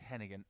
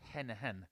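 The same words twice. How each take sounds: First: The G in the middle is fully pronounced. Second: The G in the middle is softened, not pronounced. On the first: The speaker calls it wrong. "I said Hennigan, ... if I keep pronouncing the G" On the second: The speaker calls it right. "it's Hennigan"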